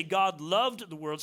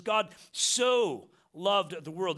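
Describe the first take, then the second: First: Said in the usual way. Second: So drawn out and punched; stress on SO. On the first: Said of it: "doesn't just say God loved the world". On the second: Shown as a demonstration. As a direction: lean slowly into so in God so loved the world. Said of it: "There's a special emphasis there".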